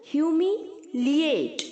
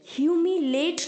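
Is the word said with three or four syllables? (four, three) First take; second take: four; three. First: The 'a' after 'li' is sounded: four syllables. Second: The 'a' after 'li' is dropped: three syllables. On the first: The speaker calls it right. "एल आई के आगे जो ए है उसे pronounce करना है" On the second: The speaker calls it wrong. "ह्यूमिलेट नहीं होता है बच्चों"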